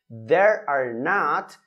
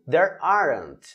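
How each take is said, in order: First: The words are said in full, unshortened. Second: The words are shortened into a contraction.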